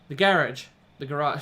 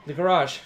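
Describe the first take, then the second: First: Put-on "The garage." with a British accent, "garage" as GA-rahj. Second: Said in the usual way. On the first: Reader slips into a British accent on "The garage.". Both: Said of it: "That's my British accent slipping in".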